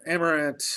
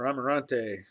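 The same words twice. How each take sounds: First: "Amarant" without a final "ay"; tentative "Amarant", closing on the T; trying a pronunciation. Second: "Amarante" with "ahn-tay" at the end; "Amarante", adding a final "ay"; alternative pronunciation. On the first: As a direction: say "Amarant" ending on a plain "ant". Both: Shown as a demonstration. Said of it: "not sure how you say that".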